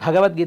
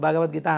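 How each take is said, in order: First: The first consonant is aspirated, a breathy bha. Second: The first consonant is unaspirated, a plain ba. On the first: The speaker calls it right. "భగవద్గీత అనడు" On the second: The speaker calls it wrong. "భగవద్గీత అంటారు"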